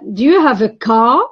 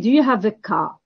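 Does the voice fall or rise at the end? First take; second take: rise; fall. First: The voice rises at the end. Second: The voice falls at the end. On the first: The speaker genuinely asks and accepts yes or no. "this is rising intonation because I'm asking for information" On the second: The speaker expects the answer to be yes. "falling intonation"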